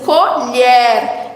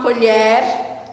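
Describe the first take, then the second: First: "colher" in two clear beats, CO, LHER; syllable by syllable. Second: Said in the usual way. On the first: Shown as a demonstration. ("colher" separando as sílabas: co, lher) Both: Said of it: "que vem pra dizer assim".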